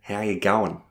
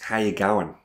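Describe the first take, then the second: First: It is said in an Australian accent, quickly. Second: It is said in an Australian accent, quickly.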